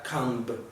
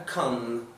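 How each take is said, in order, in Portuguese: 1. A palavra termina com um som de B audível. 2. A palavra termina sem som de B. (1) "nada de pronunciar comb" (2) "você fala a come"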